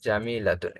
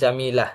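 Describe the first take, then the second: First: The word ends with a full 'tun' syllable. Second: The word ends on an open 'a' sound. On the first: "জামিলাতুন মানে হচ্ছে সুন্দরী" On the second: "যদি সেখানে ওয়াকফ করি তখন সে গোলতাটা হা হিসাবে উচ্চারণ হয়"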